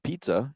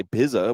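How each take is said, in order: First: "pizza" as "PEET-sa", with a T sound; "PEET-suh"; usual pizza. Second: "pizza" as "PIZZ-a", buzzed Z; "PIZ-uh", rhyming with "whiz"; wrong pizza. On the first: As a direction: say "pizza" with long EE and TS. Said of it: "You don't have a problem saying". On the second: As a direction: say "pizza" with short I and no T. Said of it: "You don't say pizza". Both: Shown as a demonstration.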